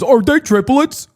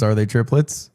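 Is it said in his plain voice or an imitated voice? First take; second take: imitated; plain. First: It is said imitating her weary tone. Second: It is said in his own plain voice.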